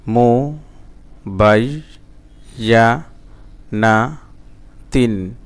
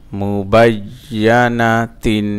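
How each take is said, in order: First: "মুবাইয়ানাতিন" very slowly, a pause after every syllable; broken syllable-by-syllable. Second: "মুবাইয়ানাতিন" slow and connected in one flow; joined reading pronunciation. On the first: Teacher showing broken pronunciation to learners, syllable by syllable. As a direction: chop "মুবাইয়ানাতিন" into separate drawn-out syllables. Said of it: "ভাঙা ভাঙা এবং reading উচ্চারণ". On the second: Teacher showing learners the reading form, syllables joined slowly. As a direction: run the syllables of "মুবাইয়ানাতিন" together, measured. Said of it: "reading উচ্চারণ".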